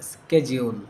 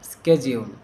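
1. শব্দটি 'sk' ধ্বনি দিয়ে শুরু হয়। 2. শব্দটি 'sk' ধ্বনি দিয়ে শুরু হয়।

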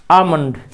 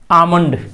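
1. पहले स्वर के बाद L की ध्वनि साइलेंट रहती है। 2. पहले स्वर के बाद L की ध्वनि साइलेंट रहती है।

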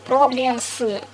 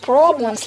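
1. Согласные смягчены, как в русском. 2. Согласные твёрдые, как в английском. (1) "Никогда не говорите по-английски problems" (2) "А в английском все значит твердо"

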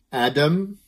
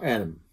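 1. De middelste medeklinker is een volledige d-klank. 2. De middelste medeklinker is een heel snelle tik. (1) "het is een andere klank dan de D van dier. Dus het is niet Adam" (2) "maar Adam. Met een flap"

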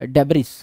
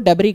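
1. यह शब्द एक सुनाई देने वाली s ध्वनि पर खत्म होता है। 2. यह शब्द बिना किसी s ध्वनि के खत्म होता है। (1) "एस साइलेंट होता है पर डेब्रिस बोल लो यार" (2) "जिसको डेब्री कहा जाता है"

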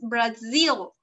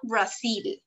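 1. La consonante es una z que zumba. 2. La consonante es una s que silba. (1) "it's Brazil, okay, a vibration here" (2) "it's not Brazil"

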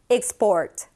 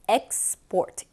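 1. 첫 음절은 'ik'처럼 들려요. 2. 첫 음절은 'ek'처럼 들려요. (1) "수출하다 이렇게 동사로 할 때는 ... 익으로 앞에 발음을 해주시는" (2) "수출이라는 뜻으로서 export 이렇게 발음이 되겠죠. x가 아니라 eg로 발음이 돼서"

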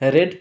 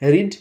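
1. স্বরধ্বনিটি হ্রস্ব, 'red' এর মতো। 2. স্বরধ্বনিটি দীর্ঘ, 'reed' এর মতো। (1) "স্পেলিং একই কিন্তু উচ্চারণ আলাদা" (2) "রিডের 3 ফর্মই এক"

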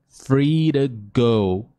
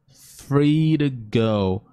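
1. O t em 'to' é um flap rápido. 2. O t em 'to' é um flap rápido.

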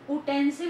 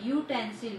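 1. शब्द की शुरुआत एक सादी vowel sound से होती है। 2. शब्द की शुरुआत एक Y consonant sound से होती है। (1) "Utensil में हम utensil नहीं बोलते हैं उसको" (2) "U, Y. So, Y is not vowel"

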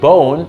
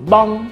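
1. คำนี้ลงท้ายด้วยเสียง 'n' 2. คำนี้ลงท้ายด้วยเสียง 'ng' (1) "ผมพูด" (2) "แต่เขาพูดบ้อง"

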